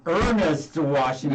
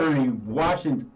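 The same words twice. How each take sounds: First: Formal name. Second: Said in the usual way. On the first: Shown as a demonstration. Host corrects the singer's nickname, slow and formal. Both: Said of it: "It sounds more formal".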